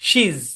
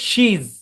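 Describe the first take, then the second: First: It is said as one contracted syllable. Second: The same.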